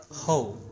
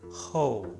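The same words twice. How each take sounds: The two takes are said the same way.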